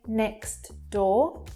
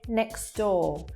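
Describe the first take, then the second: First: The T sound is heard. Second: The T sound is not heard. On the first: The speaker calls it wrong. "we wouldn't say next door" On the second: The speaker calls it right. "that T disappears"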